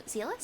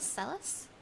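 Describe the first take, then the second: First: "Zealous" with a long EE, like "zeal"; unsure ZEE-lus for "Zealous", rising at the end; trying a pronunciation. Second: "Zealous" with a short E, like "sell"; soft, unsure ZELL-us for "Zealous", rising at the end; trying a pronunciation. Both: Shown as a demonstration. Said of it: "Is that how you pronounce it?".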